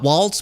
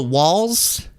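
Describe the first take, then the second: First: "Waltz" with a T before the final S; wrong pronunciation. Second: "Walz" without a T, ending in Z; corrected pronunciation. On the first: Host showing the wrong name, "Waltz" with a T. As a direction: say "Waltz" like the dance. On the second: Host showing the right name, "Walz" with no T. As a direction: say "Walz" like walls, rising at the end. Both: Shown as a demonstration. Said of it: "Not Waltz, but Walz".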